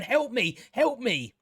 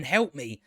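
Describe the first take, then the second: First: "Help me" pitched higher in a hammed-up plea; hammed-up damsel squeal on "Help me, help me"; mock cry for help. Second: Said in the usual way. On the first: Mocking the screaming woman in the show, hammed-up higher plea. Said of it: "she's going". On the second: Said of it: "this woman starts screaming".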